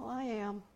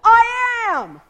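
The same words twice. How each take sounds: First: It is said weakly and tentatively. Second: It is said forcefully and definitively.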